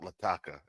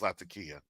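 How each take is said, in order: First: The name ends with a short 'kah' sound. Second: The name ends with a 'kee-ah' sound. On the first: The speaker calls it wrong. "It's not Lataka" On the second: The speaker calls it right. "it's Latakia"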